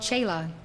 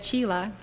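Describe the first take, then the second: First: The word has a Hindi pronunciation. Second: The word has an English-style pronunciation. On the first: "The word chela in Hindi is called chela. ... that correct pronunciation" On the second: "he said chela, and it's been with us ever since"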